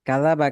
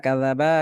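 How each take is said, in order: The two takes are said the same way.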